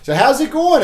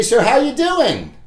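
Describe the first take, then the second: First: Bright greeting. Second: Upbeat door greeting. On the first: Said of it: "You know?". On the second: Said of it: "you say". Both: Shown as a demonstration.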